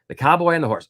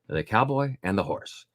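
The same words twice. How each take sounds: First: It is read at a quicker, livelier pace. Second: It is read at a slower, calmer pace.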